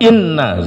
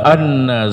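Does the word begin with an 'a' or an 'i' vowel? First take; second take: i; a. First: The first vowel is a close 'i'. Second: The first vowel is an open 'a'. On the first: "Bisa juga dikasrah" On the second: "hamzah boleh dibaca fathah"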